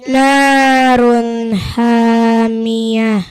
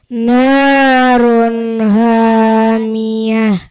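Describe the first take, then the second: No difference in how they are said.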